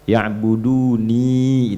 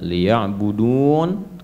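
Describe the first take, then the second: First: The word ends with a final i vowel. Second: The word ends without a final vowel. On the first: The ending points to the object of worship. "asalnya itu itu ada ya-nya di ujung" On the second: The reader is pausing at the end of the verse. "hanya karena kita wakaf di situ"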